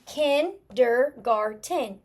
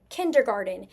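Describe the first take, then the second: First: KINDERGARTEN slowly split into four clear syllables. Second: Said in the usual way. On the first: Shown as a demonstration. Teacher rereading a spelling to check it, syllable by syllable. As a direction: sound out KINDERGARTEN one syllable at a time. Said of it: "when I'm stretching through it". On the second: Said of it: "go back and reread what I spelled".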